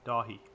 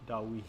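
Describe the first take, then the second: First: The middle of the name has an h sound. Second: The middle of the name has a w sound. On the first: The speaker calls it right. "I'm going to try to pronounce it correctly" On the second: The speaker calls it wrong. "when I saw the W I thought it was Dawi"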